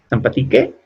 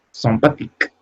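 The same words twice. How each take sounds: First: Sympathique with the final e voiced, sam-pa-ti-ke; the learner's mistake, Sympathique with an extra e at the end; wrong pronunciation on purpose. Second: Sympathique said the French way, final e silent, ending on a crisp k; Sympathique, nasal first vowel and no final vowel; correct French pronunciation. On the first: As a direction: Sympathique read like Spanish, sounding the last e, asked as a question. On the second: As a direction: model Sympathique as a teacher would, ending on the k. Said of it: "Esta termina en E sola". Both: Shown as a demonstration.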